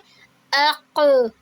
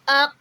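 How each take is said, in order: First: The final consonant is released with a bounce. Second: The final consonant is held and stopped. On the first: The speaker calls it right. "हम इसको पढ़ेंगे" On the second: The speaker calls it wrong. "ऐसे नहीं पढ़ेंगे, रोक कर नहीं पढ़ेंगे"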